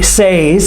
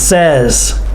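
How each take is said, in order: First: The vowel is a long 'ay' sound. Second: The vowel is a short 'e' sound. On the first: The speaker calls it wrong. "we do not say says" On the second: The speaker calls it right. "like the eh, short E sound"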